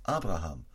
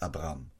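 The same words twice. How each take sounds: First: Abraham said in full, three syllables with the ha; Abraham with every syllable sounded; full name Abraham. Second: Abraham said short as Abram, without the middle ha; Abraham clipped to two syllables, Abram; wrong name Abram. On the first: Preacher correcting, says the new name in full. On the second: Preacher correcting the crowd, says the old name Abram. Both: Shown as a demonstration. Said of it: "Nicht Abraham".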